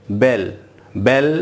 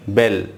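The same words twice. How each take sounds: First: बेल with the ल drawn out long; wrong long bell. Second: बेल said short, no long ल; short bell. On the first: Teacher shows the wrong long बेल. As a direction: stretch the double l in बेल. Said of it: "नहीं, बेल।". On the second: Teacher gives the correct short बेल. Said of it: "बेल sound आपको long नहीं करना है". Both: Shown as a demonstration.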